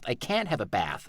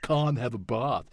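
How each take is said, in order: First: It is said in an American accent. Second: It is said in a British accent.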